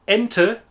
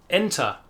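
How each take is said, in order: First: "Ente" with a short "uh" at the end, raised and loud. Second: "Enter" ending in an open "ah", no R. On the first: Teacher distinguishing similar words, short final e. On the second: Teacher distinguishing similar words, open -er ending. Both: Shown as a demonstration. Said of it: "to distinguish between".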